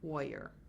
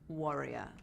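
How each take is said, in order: First: It is said in an American accent. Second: It is said in a British accent.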